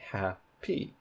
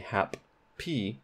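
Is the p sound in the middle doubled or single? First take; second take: single; doubled. First: The p sound is said only once. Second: The p sound is doubled across syllables. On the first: The speaker calls it right. "there's only one P sound. So ... you say" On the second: The speaker calls it wrong. "you don't say"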